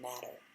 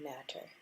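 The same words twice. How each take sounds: First: The T sounds are soft and not emphasized. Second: The T sounds are crisp and strongly stressed. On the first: "otherwise it's just matter" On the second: "I really had to emphasize the T's in that"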